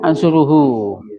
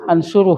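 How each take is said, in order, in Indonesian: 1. Kata ini berakhir dengan vokal u penuh. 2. Kata ini berakhir dengan bunyi h pendek, tak bersuara. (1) "Aslinya ansuruhu" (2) "ada haknya yang dimatikan"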